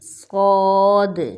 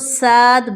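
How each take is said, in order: First: The letter is said with a heavy, full sound. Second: The letter is said with a thin, light sound. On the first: The speaker calls it right. "इसको बोल्ड करके पढ़ेंगे" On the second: The speaker calls it wrong. "अगर इसको बारीक आवाज़ में पढ़ेंगे तो साद बनता है, जो कि बिल्कुल गलत मखरज है"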